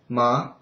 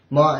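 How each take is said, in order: First: The syllable follows the second tone. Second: The syllable follows the first tone. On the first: It means a tingling sensation. "If you change it to second, it'll sound like ma" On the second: It means mother. "ma is first"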